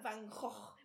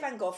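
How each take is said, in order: First: The name is said the Dutch way. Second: The name is said the British way. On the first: "the actual pronunciation is like Van Gogh" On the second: "we say Van Gogh, obviously, in the UK"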